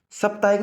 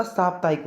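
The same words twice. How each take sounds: First: साप्ताहिक opening on short "sap"; wrong pronunciation. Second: साप्ताहिक opening on long "saap"; correct pronunciation. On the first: Teacher shows students the short vowel, mispronounced. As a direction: say साप्ताहिक as "sup-taa-ik". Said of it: "साप्ताहिक नहीं होता". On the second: Teacher corrects it for students, careful pronunciation. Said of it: "साप्ताहिक होता है". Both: Shown as a demonstration.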